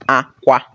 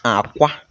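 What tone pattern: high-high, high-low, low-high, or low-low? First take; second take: high-high; low-high. First: Both syllables are on a high tone. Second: The first syllable is low, the second high. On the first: It means cry. "We are using high, high tone" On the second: It means egg. "We are using low and high tone"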